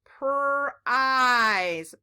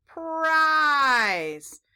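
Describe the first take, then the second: First: "Prize" split into a held pr, then ize; sounding out. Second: "prize" in one piece, long i, louder and higher; blended word. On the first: Teacher trying to read it with children, sounding out. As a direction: break "Prize" into two slow sound chunks. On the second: Teacher trying to read it with children, blended word. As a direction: blend "prize" with a stretched, falling vowel. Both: Shown as a demonstration. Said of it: "Let's try to read it".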